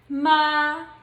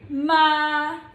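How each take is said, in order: First: It is said in the first tone. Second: It is said in the first tone.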